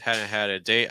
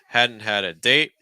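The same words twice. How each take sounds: First: The D sounds are weak and flow together. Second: The D sounds are strong and separate. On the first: The speaker calls it right. "flow that more, weaken the D's" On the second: The speaker calls it wrong. "the D sounds are just so heavy"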